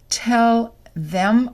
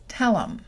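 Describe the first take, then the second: First: The th in them is fully pronounced. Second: The th is dropped and the words link.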